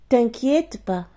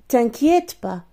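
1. Le mot 'ne' est complètement omis. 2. Le mot 'ne' est complètement omis.

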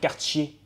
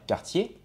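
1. Le t est suivi d'un sifflement proche de ch. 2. Le t est une occlusive simple, nette. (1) "ils vont dire quartier" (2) "au lieu de dire quartier"

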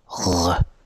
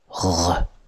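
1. 'r' गले के पीछे से बनता है। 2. 'r' गले के पीछे से बनता है।

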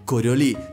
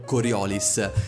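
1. Il nome si pronuncia alla francese. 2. Il nome si pronuncia proprio come si scrive. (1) "la pronuncia corretta per l'appunto è Coriolis, dal nome del fisico francese" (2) "pronunciare il titolo di questo gioco per così come si legge"

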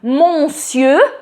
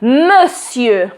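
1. Pierwsza sylaba to nosowe 'mon'. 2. Pierwsza sylaba to zwykłe 'muh'. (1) "tak nikt nie mówi" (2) "usłyszymy i powiemy monsieur"

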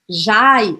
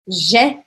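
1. A vogal desliza como 'ai'. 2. A vogal é um som 'e' simples. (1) "eu não vou falar jai" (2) "eu vou falar je"

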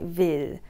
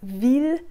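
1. Le i est relâché et détendu. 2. Le i est tendu et plein.

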